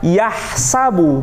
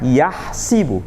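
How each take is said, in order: First: The second vowel is an 'a' sound. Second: The second vowel is an 'i' sound. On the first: "kalau kita baca yahsabu" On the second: "bukan yahsibu"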